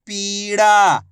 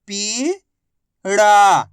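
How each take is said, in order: First: पीड़ा joined, both vowels held; blended word. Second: पीड़ा split as पी, long pause, ड़ा; syllable by syllable. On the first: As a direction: blend पी and ड़ा into पीड़ा without a gap. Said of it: "आपस में मिला के पढ़ दो". (पीड़ा को मिलाकर बोलें) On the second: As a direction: sound out पीड़ा slowly, पी rising, ड़ा falling. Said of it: "एक अक्षर की पहचान करो, उनका उच्चारण करो". (पीड़ा को अक्षर-अक्षर अलग बोलें) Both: Shown as a demonstration.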